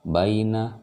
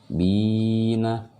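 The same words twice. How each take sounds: First: "baina" as a brief bai glide, not held; short diphthong. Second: "bina" with the i drawn out on a high held note; long vowel. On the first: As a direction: chant "baina" without stretching the first syllable. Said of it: "ini enggak". ("baina" dibaca pendek, bai-na) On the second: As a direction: hold "bi" long, then drop "na" in short. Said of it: "Ini dipanjangkan". ("bina" dengan bi panjang) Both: Shown as a demonstration.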